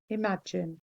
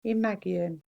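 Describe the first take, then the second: First: Said in the usual way. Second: Imagion said as im-AG-ee-on, g hard; softer spelling pronunciation of Imagion. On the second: Shown as a demonstration. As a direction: sound out Imagion as it looks, ee-on ending. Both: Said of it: "looks like imagion".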